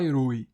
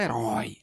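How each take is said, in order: First: HERÓI with closed ô, e-RÔI; closed diphthong. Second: HERÓI with wide-open ó, e-RÓI; open diphthong. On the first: Teacher showing what we don't say, HERÓI as e-RÔI. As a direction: close the last vowel of HERÓI to ô. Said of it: "a gente não fala herói". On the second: Teacher correcting the sound, HERÓI as open e-RÓI. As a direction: drop low and open the end of HERÓI to ó. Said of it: "a gente fala herói". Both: Shown as a demonstration.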